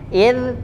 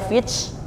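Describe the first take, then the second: First: The final consonant stops at the tongue tip. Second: The final consonant hisses like an s. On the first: The speaker calls it right. "إذ tidak memantul. إذ berhenti pada ujung lidah" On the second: The speaker calls it wrong. "nah itu cenderung pada sin"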